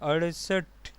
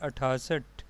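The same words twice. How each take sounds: First: "अड़सठ" said ar-sath, flapped r and no thaa; teacher's careful "अड़सठ", two syllables ar-sath; correct pronunciation. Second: "अठासठ" said with a long aa, a-thaa-sath; mispronounced number. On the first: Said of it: "जबकि इसका सही तलफ़ुज़ है". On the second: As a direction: say the wrong form "अठासठ", thaa in the middle. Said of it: "इसका गलत तलफ़ुज़ है". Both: Shown as a demonstration.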